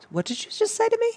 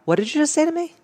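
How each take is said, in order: First: Much higher, confronting retort; powerful comeback. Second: Higher, challenging retort; powerful comeback. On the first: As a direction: demand it back, stunned and challenging. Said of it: "such a powerful thing just to go". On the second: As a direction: turn it back on them, daring. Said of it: "I just look at them and I go". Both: Shown as a demonstration.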